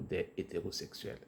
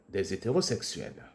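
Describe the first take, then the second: First: The words are said separately without a linking sound. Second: A z sound links des into the next word. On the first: The speaker calls it wrong. "et non pas" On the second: The speaker calls it right. "le H est dit muet"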